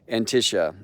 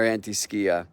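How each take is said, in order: First: It is said with a 'sh' sound, no 'k'. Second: It is said with a 'sk' sound before the end. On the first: The speaker calls it wrong. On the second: The speaker calls it right.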